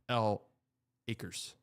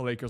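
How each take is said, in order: First: It starts with the letter name 'el'. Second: It starts with a plain 'l' sound.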